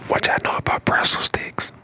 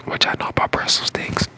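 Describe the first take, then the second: No difference in how they are said.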